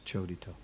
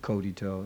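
First: The word begins with a ch sound. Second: The word begins with a hard k sound. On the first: The speaker calls it right. "The C in Sanskrit is always pronounced like cha" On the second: The speaker calls it wrong.

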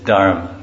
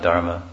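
First: The word ends without a final vowel. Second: The word ends with a final 'a' vowel. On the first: This is how it is said in India. "It's Dharma" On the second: This is how it is said outside India. "not Dharma"

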